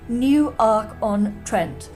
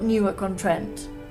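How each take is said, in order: First: Newark is split into two separate words. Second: Newark is run together as one word. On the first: "it's clearly two words" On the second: "Definitely not"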